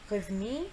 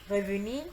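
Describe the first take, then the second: The two takes are said the same way.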